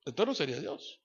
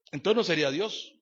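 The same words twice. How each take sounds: First: "no" falls, softer and settled; quiet falling answer. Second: "no" lifted, ending on a rise; rising question. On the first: Preacher answers his own question, softly and with finality. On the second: Preacher poses it to the congregation as a rising question. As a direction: ask it as a challenge. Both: Shown as a demonstration.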